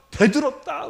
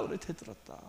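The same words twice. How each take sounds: First: Higher, loud 대들었다 snapped out; emphatic answer. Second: 그래 then 대들었다 breathed in a whisper, much softer; whispered echo. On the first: Preacher answering his own question, loud and sharp. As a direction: fire back 대들었다 as the answer. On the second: Preacher repeating the answer to the congregation in a whisper. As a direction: whisper it back to drive it home. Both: Shown as a demonstration.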